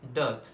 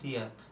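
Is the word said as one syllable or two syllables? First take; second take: one; two. First: It is said as a single syllable. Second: It is split into two separate syllables. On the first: The speaker calls it right. "हम pronounce क्या करेंगे?" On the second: The speaker calls it wrong. "लिखने को अगर हम पढ़ेंगे"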